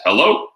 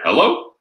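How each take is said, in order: First: Phone greeting hello; their hello. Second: Mirrored hello, pitched higher; matching hello. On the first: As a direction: answer with a rising hello. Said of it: "the first word out of their mouth is". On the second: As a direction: echo their "hello" right back, rising. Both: Shown as a demonstration.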